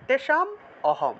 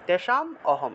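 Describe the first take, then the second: First: The words are split after the m. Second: The same.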